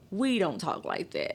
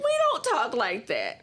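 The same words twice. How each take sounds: First: Said in the usual way. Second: Slow, higher, indignant correction; emphatic retort. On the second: Retold or imitated. Mississippi woman retelling her comeback to a cab driver, slow indignant retort. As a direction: set the cabbie straight, drawing out each word. Repeats retort after table interruption.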